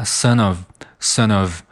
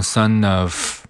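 First: "son of" linked, ending in v; voiced ending. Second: "son of" ending in a voiceless f; wrong ending. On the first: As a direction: correct "son of" as su-nuv. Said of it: "是一个浊辅音". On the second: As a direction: demonstrate the mistake, "son of" as su-noff. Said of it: "不要读成son of啊". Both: Shown as a demonstration.

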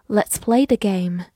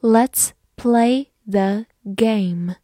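First: Said in the usual way. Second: Slow, separated words for learners; word-by-word model reading. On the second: Shown as a demonstration. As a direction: read slowly, one word at a time. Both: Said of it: "慢慢来读".

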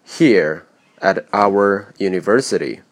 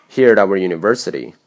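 First: Said in the usual way. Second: "Here at our university" run together quickly, the t in "at" voiced; connected speech. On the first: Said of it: "原本的语流应为". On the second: Shown as a demonstration. Teacher showing the final natural flow, linked and reduced "Here at our university". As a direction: blend "Here at our" into one chunk, "at" losing its vowel. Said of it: "整个气群听起来是这样的".

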